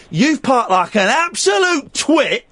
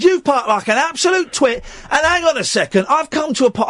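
First: Slow, every word spelled out; slow insult. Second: A bit higher, building heat; the old boy getting worked up; retold anger. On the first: Shown as a demonstration. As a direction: lean on "absolute". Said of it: "That wasn't a twit". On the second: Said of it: "I'm getting furious".

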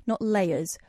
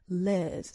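First: "layers" обычно, с чётким «эй»: лей-ерз; plain "layers". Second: "layers" слитно, как «лэз», одним слогом; posh "layers". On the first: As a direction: say "layers" plainly, clear ay sound. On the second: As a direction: squash "layers" into one posh syllable, "lairs". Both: Retold or imitated. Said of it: "I love the way she says layers".

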